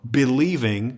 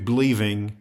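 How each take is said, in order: First: The word is said with three full syllables. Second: The word is squeezed into two syllables.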